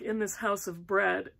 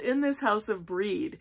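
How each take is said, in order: First: The last word rhymes with 'red'. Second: The last word rhymes with 'reed'. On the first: The speaker calls it wrong. "that's not how you pronounce it" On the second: The speaker calls it right. "It's called In This House of Breed"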